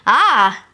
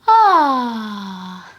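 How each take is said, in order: First: It sounds like disgust. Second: It sounds like a relieved sigh.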